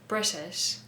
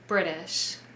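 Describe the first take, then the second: First: The T sound is left out entirely. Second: The T sound is changed into a D sound. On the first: "Some other examples from this video" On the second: "we usually change it to a D sound"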